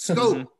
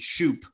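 First: The name begins with an 'sk' sound. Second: The name begins with an 'sh' sound. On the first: The speaker calls it right. "it's Scope. Get it right" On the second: The speaker calls it wrong. "they would call him Jonathan Shoop"

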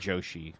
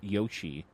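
First: The name begins with a J sound. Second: The name begins with a Y sound. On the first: "but it's probably Joshi" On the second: "It might be pronounced as the Mario character Yoshi"

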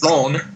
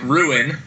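First: The name is said with a French pronunciation. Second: The name is said with an American pronunciation. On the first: This is how the locals say it. "I'm pretty sure they pronounce it Rhone" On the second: This is how English speakers say it. "you and I would pronounce it Ruin"

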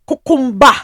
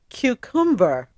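First: It is said in a Nigerian English accent. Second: It is said in a British English accent. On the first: "the mother is from Nigeria" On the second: "the daughter is born there"

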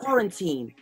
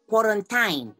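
First: It is said in a plain English accent. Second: It is said in a Nigerian accent.

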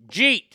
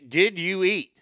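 First: The words run together into one syllable. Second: Three separate words are said in full. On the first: This is how people in the South say it. "here in the South, we say jeet" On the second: This is how people outside the South say it. "y'all that don't live in the South, y'all will say"

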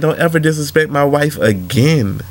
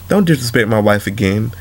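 First: It is said in an angry, heated tone. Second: It is said in a calm, controlled tone.

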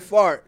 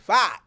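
First: The word is said with an r sound. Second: The word is said without an r sound. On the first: "Instead of saying fart" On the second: "he says fight. Like, right, it's F-A-H-T"

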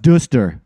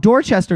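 First: The middle of the word is dropped. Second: Every syllable of the spelled word is pronounced. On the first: The name is said the local way. "why do you eliminate half of the word?" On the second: The name is read the way it is written. "I mispronounce a town the way it's spelled"

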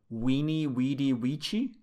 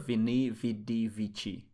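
First: Each word begins with a W sound. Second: Each word begins with a V sound.

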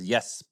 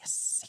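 First: The final S sound is short and ordinary. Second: The final S sound is hissed and overly clear. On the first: "he says yes" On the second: "instead it's yes, yes, yes. Just very clearly"

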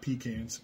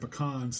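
First: The first syllable sounds like 'pee'. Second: The first syllable is short, like 'pih'. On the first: This sounds like a chamber pot. The speaker calls it wrong. "not pecans. Pecans go under the bed" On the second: This names the nut. The speaker calls it right. "they're pecans"

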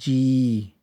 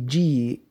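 First: The vowel is drawn out long. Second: The vowel is not drawn out. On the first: It refers to the soul or living being. "we would actually just long out the Bihari" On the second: It is a term of respect. "if it was without the Ara"

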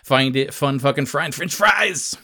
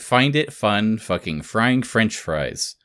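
First: It builds faster with rising energy toward the end. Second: It is said evenly with steady energy.

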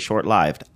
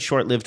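First: Lived does not sound like the verb lived. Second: Lived sounds like the verb lived. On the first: The speaker calls it right. "the correct way to say short-lived" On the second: The speaker calls it wrong. "I said short-lived most of my life"

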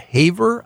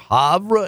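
First: The name is said with a local English pronunciation. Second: The name is said with a French pronunciation. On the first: This is how locals in that place say it. "pronounce it Havre out there" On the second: This is how the name is said in French. "or Havre in French"

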